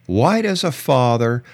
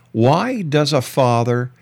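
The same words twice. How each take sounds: The two takes are said the same way.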